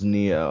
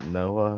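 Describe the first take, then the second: First: The name is said like Neo. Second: The name is said like Noah. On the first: The speaker calls it right. "it's Neo" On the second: The speaker calls it wrong. "I was calling it Noah or something"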